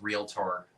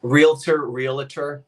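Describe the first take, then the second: First: "realtor" low and soft, ending in tor; Realtor with clear -tor. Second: "Realtor" with a loose -ter, then real-uh-ter. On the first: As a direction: finish "realtor" on a full -TOR. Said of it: "Oh gosh, it's realtor". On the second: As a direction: slip an uh into "realtor". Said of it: "it's realtor". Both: Shown as a demonstration.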